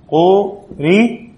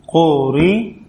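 First: قري stretched out very slowly, a little higher; very slow demo. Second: Said in the usual way. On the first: Shown as a demonstration. Teacher showing students how the word ends, very slow. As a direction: drag out قري syllable by syllable. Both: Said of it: "شوفوا كيف؟".

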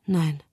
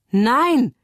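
First: Small, hushed refusal; whispered. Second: High, loud cry of refusal; screamed. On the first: Mia refuses her pardon, whispering. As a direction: murmur it under your breath, falling. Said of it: "flüstert Mia". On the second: Mia rejects her release, screaming. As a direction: cry out in protest, pitched well up. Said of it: "schreit Mia". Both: A narrator's reading.

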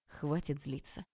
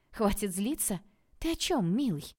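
First: Much softer and lower, calm and gentle; peaceful tone. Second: Mocking echo, pitch jumping higher on о чём; sarcastic echo. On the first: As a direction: soothe her, quietly making peace. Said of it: "неожиданно мирным тоном". (неожиданно мирно, тихо и ниже) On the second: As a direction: throw his words back at him with sarcasm. She mocks his words back. (язвительно передразнивая, выше) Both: A narrator's reading.

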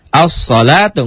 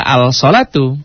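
First: "As-salatu" with a doubled s and no l; l assimilated. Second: "al-salatu" with a clear l before the s; wrong-way demo of "al-salatu", l pronounced; l wrongly sounded. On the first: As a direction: run the a straight into a held s in "As-salatu". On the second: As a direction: slowly separate al from salatu in "al-salatu". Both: Shown as a demonstration. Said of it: "nggak al-salatu".

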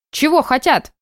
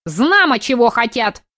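First: Put-on high old lady asking back; old woman voice. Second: Put-on high, scornful old lady snort. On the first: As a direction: echo it like a granny. Old neighbour repeats question. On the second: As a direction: snort it back like a granny. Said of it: "фыркнула старушка". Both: A narrator's reading.

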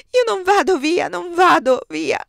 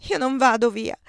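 First: Much higher and louder, the last "vado" slowed and falling; desperate crying out. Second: Despairing. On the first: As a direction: cry it out in despair, dragging the final "non vado via". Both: Acted. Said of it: "gridava disperata".

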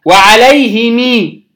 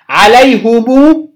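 First: وعليهم said slowly "wa-alayhimii", long final ee; added kasra form. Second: عليهم said slowly "alayhumuu", long final oo; added damma form. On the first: Teacher adding the other form, وعليهم as "wa-alayhimii". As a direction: draw out وعليهم into "himii". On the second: Teacher adding a form for students, عليهم as "alayhumuu". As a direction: draw out عليهم into "humuu". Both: Shown as a demonstration. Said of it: "قلنا هنزود وجهين".

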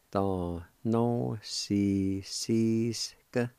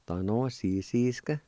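First: Very slow, "Da no si si ska" stretched syllable by syllable; slow demo. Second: Said in the usual way. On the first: Shown as a demonstration. Teacher repeating the Cherokee word slowly for students. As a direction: sound out each syllable carefully. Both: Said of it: "it's pronounced like this".

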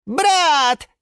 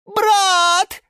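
First: High, loud single cry; shouted call. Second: Very high, loud drawn-out yell; louder wail. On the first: Sushil calls to Yura from the aquarium, shouting. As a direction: call out to a long-lost brother. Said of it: "закричал в ответ голос". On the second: Sushil insists on his brother, yelling louder. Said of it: "завопил Сушил громче". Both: A narrator's reading.

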